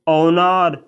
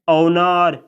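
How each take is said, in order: Both takes have the same delivery.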